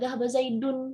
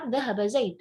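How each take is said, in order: First: The name ends with a vowel-plus-n ending. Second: The name ends bare, without a final ending. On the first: The speaker keeps the full grammatical ending. The speaker calls it wrong. "udah nggak bisa dhahaba Zaidun" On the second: The speaker is pausing at the end. The speaker calls it right.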